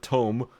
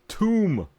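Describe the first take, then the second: First: The vowel rhymes with 'home'. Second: The vowel rhymes with 'room'. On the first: The speaker calls it wrong. "Not tome" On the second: The speaker calls it right. "It's tomb!"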